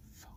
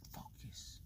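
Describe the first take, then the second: First: Said in the usual way. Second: Breathy whisper to himself; whispered to self. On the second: Real, not acted. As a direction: whisper it to refocus. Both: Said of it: "let's just focus".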